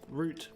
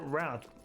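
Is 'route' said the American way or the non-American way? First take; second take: non-American; American. First: The word is said the non-American way. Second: The word is said the American way. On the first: "but it's route" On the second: "I've always called it route"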